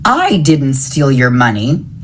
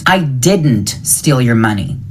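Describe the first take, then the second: First: The stress falls on the word I. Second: The stress falls on the word didn't. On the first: Someone else took the money. "It was someone else" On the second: The speaker denies doing it at all. "I didn't do it"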